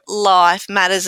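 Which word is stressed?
life. The stress falls on the word life. It is about things in life. "as in things in life"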